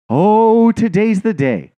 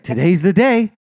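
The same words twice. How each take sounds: First: Louder, higher, drawn-out gloating cat; gleeful predator cat. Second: Higher, quicker gleeful cat voice; eager cat. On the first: The cat watching the bird, slow gloating relish. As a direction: savour it slowly like a cat about to pounce. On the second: The cat watching the bird, eager and higher. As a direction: announce it like a hungry cat. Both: Retold or imitated.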